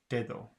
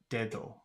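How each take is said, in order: The two takes are said the same way.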